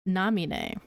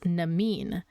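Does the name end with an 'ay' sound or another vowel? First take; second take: ay sound; another vowel. First: The final E is said as an 'ay' sound. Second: The final E is not said as 'ay'. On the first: The speaker calls it right. "That's how you pronounce her name" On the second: The speaker calls it wrong. "people would read it and assume it's pronounced"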